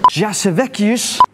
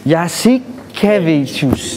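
First: Jasevekius said slowly, syllables mangled; wrong pronunciation. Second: Jasikevičius said very slowly, yah-see-keh-VEE-chus; corrected pronunciation. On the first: Host mangles the player name Jasevekius before asking. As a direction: stumble through Jasevekius slowly. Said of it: "Did I say it bad?". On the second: Host repeats Jasikevičius slowly after the correction. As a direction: carefully sound out Jasikevičius. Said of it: "It's like Jasikevičius". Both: Shown as a demonstration.

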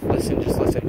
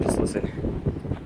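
First: Urgent hushed whisper. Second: Drawn-out breathy whisper, very slow. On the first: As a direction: whisper it so the noises stay audible. Hushing friend to hear noises. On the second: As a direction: stretch the whisper out slowly. Repeats hush, slower. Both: Real, not acted.

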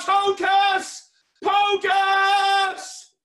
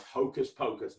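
First: Very loud, high, drawn-out chant; magic-word shout. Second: Said in the usual way. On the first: Shown as a demonstration. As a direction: bellow the magic words, stretching each one out. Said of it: "Everybody shout". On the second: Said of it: "you guys are gonna shout".

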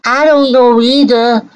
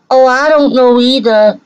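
First: Sing-song mimicry of the woman in the clip, pitched higher; mocking echo. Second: Higher, sneering repeat of her words with an added "Oh"; mocking echo. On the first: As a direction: parrot her words back with a sneer. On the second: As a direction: mimic her again, even more scornful.

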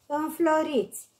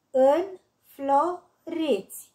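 First: Said in the usual way. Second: "Înfloriți" slowly split, în-flo-riți; syllable by syllable. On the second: Shown as a demonstration. („Înfloriți” rostit rar, pe silabe: în-flo-riți) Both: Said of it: "Desparte în silabe cuvintele date".

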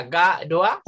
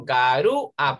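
First: Said in the usual way. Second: Garúa slowed, weight on the ú; stress on the ú. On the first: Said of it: "sino garúa". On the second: Shown as a demonstration. Teacher to pupils, garúa with ú stressed. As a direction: lean on the ú in garúa. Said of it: "ya no sería garoa".

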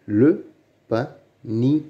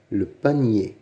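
First: "Le panier" broken up by pauses; syllable by syllable. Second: Said in the usual way. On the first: Shown as a demonstration. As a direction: sound out "Le panier" one piece at a time. (« Le panier » détaché syllabe par syllabe) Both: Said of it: "Lis les mots".

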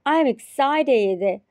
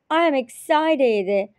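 No difference in how they are said.

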